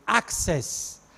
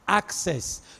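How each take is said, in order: The two takes are said the same way.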